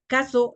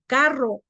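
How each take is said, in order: First: "carro" said as "caso". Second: Said in the usual way. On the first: Shown as a demonstration. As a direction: swap the rr for s, "caso". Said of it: "los niños chiquiticos". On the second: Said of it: "en vez de decir carro".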